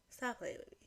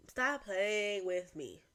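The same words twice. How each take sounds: First: Said in the usual way. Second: Slow, stretched-out words; slow-motion playful telling-off; drawn-out warning. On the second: Pretend. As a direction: drag out each word deliberately. Repeats the phrase, second drawn out.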